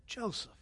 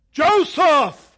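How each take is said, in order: First: Quiet call. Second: Loud booming call from above; booming voice from heaven. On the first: Acted. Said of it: "and he said". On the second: Pretend. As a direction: boom the name like God from the sky. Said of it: "an audible, booming voice out of heaven".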